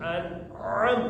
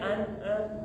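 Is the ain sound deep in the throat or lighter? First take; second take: deep; lighter. First: The ain is pronounced deep in the throat. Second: The ain is pronounced slightly lighter than usual. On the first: "harus ainnya tuh dalam gitu ya, makhrajnya harus tepat banget" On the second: "ada bedanya an'am dikit doang itu sudah sah"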